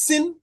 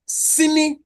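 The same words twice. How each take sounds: First: "sin" as one syllable ending on the n; slow demonstration of "sin", final vowel dropped; final vowel deleted. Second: "sini" with both vowels sounded; slow, higher "sini", final i kept; full disyllabic form. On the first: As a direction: say "sin" slowly, no i after the n. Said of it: "it becomes sin". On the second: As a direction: say "sini" slowly as two syllables. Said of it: "because of the deletion of the peak". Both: Shown as a demonstration.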